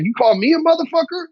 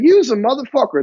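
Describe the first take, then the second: First: High-pitched offended challenge, climbing at the end; bad-mood indignation. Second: Higher-pitched playful jab; good-mood teasing. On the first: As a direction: act out taking it as an insult. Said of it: "they could be in a bad mood". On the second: Acted. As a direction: toss it out like a cheerful greeting to a buddy. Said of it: "you could be in a good mood".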